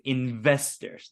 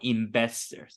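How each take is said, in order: First: The middle consonant is a clear V sound. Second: The middle consonant sounds like a B. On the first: The speaker calls it right. "It's investors" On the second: The speaker calls it wrong. "not investors"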